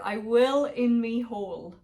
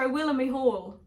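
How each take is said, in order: First: The phrase is said slowly. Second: The phrase is said at normal speed.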